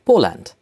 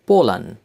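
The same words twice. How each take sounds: First: Said in the usual way. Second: "Poland" in German, as POH-len; German-style "Poland", ending in 'len'; German pronunciation. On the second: Shown as a demonstration. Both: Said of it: "names of countries with German accent".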